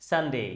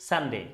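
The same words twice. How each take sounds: Both takes have the same delivery.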